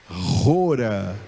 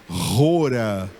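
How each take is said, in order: The two takes are said the same way.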